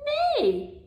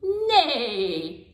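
First: Neigh squealed much higher like a whinnying horse; whinny the word Neigh like a horse. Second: Said in the usual way. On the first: Shown as a demonstration. Speech therapist showing a toddler the horse sound, high whinnying Neigh. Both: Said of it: "The horse says neigh".

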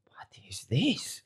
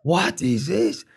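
First: Slow, stunned whisper; whispered shock. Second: Slow, louder outraged question; stunned louder repeat. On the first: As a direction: breathe it out in disbelief. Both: Retold or imitated. Coach shocked by weight.

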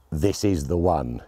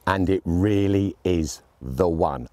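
First: Said in the usual way. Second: Slow, leaning hard on "really"; stress on really. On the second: Shown as a demonstration. Reviewer insisting this is the scope: slow stress on "really". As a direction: stretch out "really" and land it.

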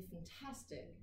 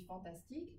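First: "fantastic" with the second syllable TAS stressed and drawn out; slow English "fantastic", leaning on fan-TAS-tic; English word stress. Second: "fantastique" with every syllable equally weighted, French style; French pronunciation. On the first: Teacher shows English stress to students, "fantastic" stressed on TAS. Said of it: "En anglais, quand on dit". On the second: Teacher caricatures French for students, "fantastique" in even French syllables. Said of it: "en français". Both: Shown as a demonstration.

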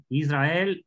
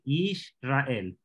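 First: Said in the usual way. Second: Israel split as Yish-ra-el, with a clear sh; Israel en hebreo. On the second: Shown as a demonstration. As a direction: say Israel in parts, Yish then ra-el. (Israel dividido en Yish-ra-el, con sh) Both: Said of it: "Fíjense cómo está aquí".

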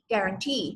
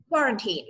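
First: GUARANTEE with the final syllable stressed; stress on last syllable. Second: QUARANTINE with the first syllable stressed. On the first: Teacher compares two words, guarantee stressed on its last syllable. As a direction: put the weight on "tee" in guarantee. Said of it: "ลงเสียงหนักที่". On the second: Teacher compares two words, quarantine stressed on its first syllable. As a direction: put the weight on "qua" in quarantine. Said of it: "ลงเสียงหนักที่พยางค์แรก". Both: Shown as a demonstration.

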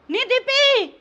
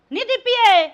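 First: Loud call across the house. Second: A louder call, stretching the last ए. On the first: Mother-in-law calling her daughter-in-law, loud call. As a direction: call her name sharply from the kitchen. Mother-in-law calls Deepi over spilt milk. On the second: Mother-in-law calling Deepi a second time, louder impatient call. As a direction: shout her name this time, losing patience. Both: Acted.

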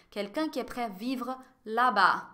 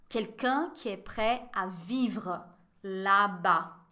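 First: Said in the usual way. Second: Slow model reading. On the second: Shown as a demonstration. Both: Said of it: "Olha a pronúncia".

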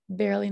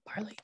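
First: "barely" with an "air" first syllable; corrected pronunciation. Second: "barley" with an "ar" first syllable; rejected pronunciation. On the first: Teacher correcting a misread spelling word, "barely" said with an air sound. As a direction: say "barely" as BAIR-lee. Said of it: "not barley". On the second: Teacher naming the word it is not, "barley" said with an ar sound. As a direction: say "barley" as BAR-lee. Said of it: "Sorry, that's barely". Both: Shown as a demonstration.

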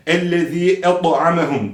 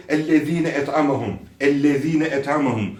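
First: "Ellezî" ending on long i, heavy t in "et'amehum"; no added n, thick ط in "et'amehum"; correct reading. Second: "ellezîne" with a stray ne syllable tacked on; added ne. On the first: Quran teacher correcting the error, heavy emphatic t. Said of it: "Buradaki da'dır". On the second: Quran teacher imitating an error, extra syllable added. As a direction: link "ellezîne" into "et'amehum" with an extra n. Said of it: "olmayan bir ne ekleniliyor". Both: Shown as a demonstration.

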